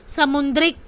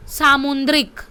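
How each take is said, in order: First: समुद्रिक with a short first vowel, sa-mu; wrong form. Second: सामुद्रिक with a long first vowel, saa-mu; correct form. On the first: Teacher showing the misspelt समुद्रिक with short sa. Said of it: "किस तरह से स दिया गया". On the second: Teacher giving the correct word सामुद्रिक with long saa. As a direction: stretch the सा in सामुद्रिक. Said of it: "right one में लिखा गया है सा". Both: Shown as a demonstration.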